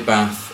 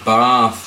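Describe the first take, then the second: First: It is said with a northern English accent. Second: It is said with a posh English accent. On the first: "most people would say Bath" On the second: "It's just generally the posh people that would say Bath"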